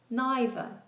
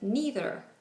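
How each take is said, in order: First: It is said with a British vowel. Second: It is said with an American vowel. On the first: "in the U K are pronounced that way" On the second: "In American English, they are pronounced"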